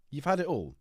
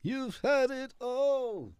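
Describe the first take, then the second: First: Said in the usual way. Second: High, drawn-out wail of complaint; theatrical lament. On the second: Acted. Speaker protests that nothing is left, high theatrical lament. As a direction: stretch every word high in mock outrage.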